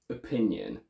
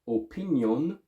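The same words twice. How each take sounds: First: The vowels around the stressed syllable are schwas. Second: The vowels around the stressed syllable are full. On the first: The speaker sounds like a native speaker. The speaker calls it right. "to native" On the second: The speaker sounds like a non-native speaker. The speaker calls it wrong. "from foreign"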